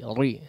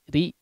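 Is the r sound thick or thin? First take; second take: thick; thin. First: The r sound is heavy and thick. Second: The r sound is light and thin. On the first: The speaker calls it wrong. "jangan ri ri ya, terdengar tebal" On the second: The speaker calls it right. "langsung tipis"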